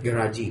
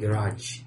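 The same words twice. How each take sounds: First: The final consonant is a hard G-like sound. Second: The final consonant is soft, not a hard G. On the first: The speaker calls it wrong. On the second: The speaker calls it right.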